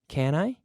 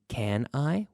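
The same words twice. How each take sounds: First: The words are reduced and run together. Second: Both words are said fully and clearly. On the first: "We say can I?" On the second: "we don't always say can I"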